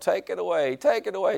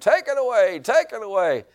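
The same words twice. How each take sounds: First: It is said loudly, as a yell. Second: It is said very loudly, as a scream.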